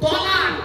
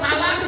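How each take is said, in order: First: The first consonant is a heavy, emphatic t. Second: The first consonant is a light, plain t. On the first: The word means divorce. The speaker calls it right. "আরবি উচ্চারণ কি? তোয় লামানির ক" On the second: The word means joining together. The speaker calls it wrong. "শব্দটা তালাক নয়"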